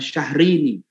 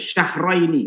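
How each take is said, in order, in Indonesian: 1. Suku kata kedua cuma vokal 'i' biasa. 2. Suku kata kedua punya diftong 'ai'. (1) "bukan syahrini" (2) "Bacanya yang benar tuh syahraini"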